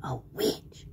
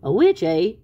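First: Low, hushed spooky witch; witch whisper. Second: Loud, doubting question; sceptical echo. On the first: A narrator's reading. Tweety Witch announcing herself to Sylvester, spooky whisper. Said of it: "said the Tweety Witch". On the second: Acted. Sylvester doubting the tiny witch, loud sceptical question. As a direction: throw it back loudly, unimpressed.

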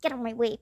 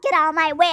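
First: Said in the usual way. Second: Loud, pushy get out of my way; annoyed yell. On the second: Acted. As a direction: shove through the crowd with your voice. Kid shoving through crowd.

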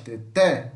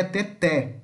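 First: Teté with the final té stronger; teacher modelling teté for students; stress on té. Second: Teté with an open é in the last syllable; teacher showing the open é in teté. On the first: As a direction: lean on the last té of teté. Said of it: "o té é mais forte". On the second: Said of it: "com som aberto". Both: Shown as a demonstration.

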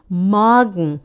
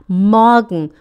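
Both takes have the same delivery.

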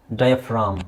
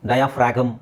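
First: ಡಯಾಫ್ರಾಮ್ ending in "fram", no g; silent G. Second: ಡಯಾಫ್ರಾಗಮ್ with an audible "g", "die-a-frag-um"; wrong, sounded G. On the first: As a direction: say ಡಯಾಫ್ರಾಮ್ as "DIE-a-fram", low and falling. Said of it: "ಇಲ್ಲಿ ಜಿ silent". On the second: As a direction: put a hard g into ಡಯಾಫ್ರಾಗಮ್. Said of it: "ಅಲ್ಲ". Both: Shown as a demonstration.

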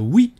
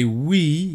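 First: "oui" higher and louder, pronounced as in French. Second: Said in the usual way. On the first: Retold or imitated. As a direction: imitate the ghost's French "oui" with a French vowel. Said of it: "he said, uh". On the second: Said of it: "He didn't say "oui".

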